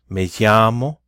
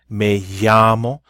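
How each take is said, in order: First: The double L sounds like a light Y. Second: The double L sounds like a light Y.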